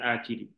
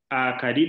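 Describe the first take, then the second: First: The second vowel is an i sound. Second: The second vowel is an a sound. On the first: The speaker calls it wrong. "bukan akidi" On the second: The speaker calls it right. "Jadi yang benar akadu bukan akidi. Akadi"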